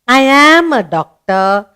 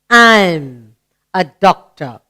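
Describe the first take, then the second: First: I and am are said as two words. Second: I and am merge into one syllable. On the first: "the A is missing" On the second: "You read it as I'm"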